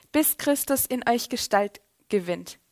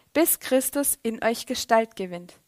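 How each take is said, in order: Both takes have the same delivery.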